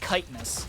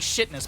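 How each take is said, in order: First: The word begins with a 'k' sound. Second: The word begins with an 'sh' sound. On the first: The speaker calls it right. "but it's kiteness" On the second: The speaker calls it wrong. "I like to say shitness"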